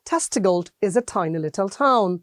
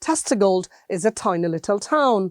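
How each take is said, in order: The two takes are said the same way.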